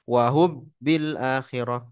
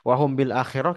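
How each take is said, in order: First: The m turns into b, merging with it. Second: The m stays a nasal hum before the b. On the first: The speaker calls it wrong. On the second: The speaker calls it right.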